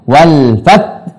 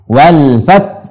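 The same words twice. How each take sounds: No difference in how they are said.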